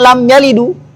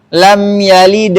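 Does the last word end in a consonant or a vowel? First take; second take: vowel; consonant. First: The final d is followed by an u vowel. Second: The final d has no vowel after it. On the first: "dikasih harakat dhamma lam yalidu. Itu lahan apa nih? Lahan jali" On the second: "dalnya lam yalid itu sukun kan?"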